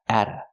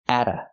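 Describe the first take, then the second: No difference in how they are said.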